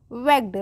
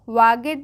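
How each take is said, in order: First: वेग्ड in one syllable, short "e"; correct pronunciation. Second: वागेड as two syllables, "vaa-ged"; wrong pronunciation. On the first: Teacher repeats the right reading for learners, correctly pronounced. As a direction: say वेग्ड as "vegd". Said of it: "वागेड नहीं पढ़ेंगे इसको". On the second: Teacher warns learners off this reading, mispronounced as spelt. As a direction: sound out वागेड with long "aa" and full "-ed". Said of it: "नहीं पढ़ेंगे इसको". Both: Shown as a demonstration.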